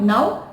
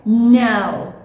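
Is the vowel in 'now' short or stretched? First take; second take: short; stretched. First: The vowel is said short and clipped. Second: The vowel is drawn out and stretched. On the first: The speaker calls it wrong. "it is not now" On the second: The speaker calls it right. "please stretch it a little bit"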